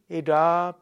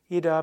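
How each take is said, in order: First: The final a of each name is held long. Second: The final a of each name is shortened. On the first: This is the Sanskrit way of saying the names. "Wenn du sanskritmäßig aussprechen willst" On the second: This is the Hindi way of saying the names. "in der Hindi-Variation sprechen und da wird das letzte A immer verkürzt"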